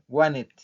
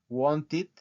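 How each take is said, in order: First: The t sound after the n is dropped. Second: The t sound after the n is pronounced.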